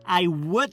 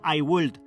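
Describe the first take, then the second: First: The L sound is silent. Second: The L sound is pronounced. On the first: The speaker calls it right. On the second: The speaker calls it wrong.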